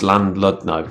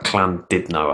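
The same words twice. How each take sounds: First: The name is said in a plainly English way. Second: The name is said in a more Welsh-like way. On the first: The speaker calls it wrong. "That's not how you say it" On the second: The speaker calls it right. "It's like Llandudno, I think you say it"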